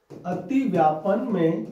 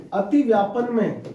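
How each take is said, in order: First: अतिव्यापन में drawn out slowly, word by word; slow dictation. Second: Said in the usual way. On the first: Shown as a demonstration. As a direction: spell out अतिव्यापन में slowly so students can write it. (अतिव्यापन में धीरे धीरे लिखवाते हुए) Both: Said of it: "लिखो".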